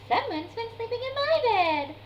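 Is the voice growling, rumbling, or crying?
rumbling. It is rumbled in Mama Bear's voice.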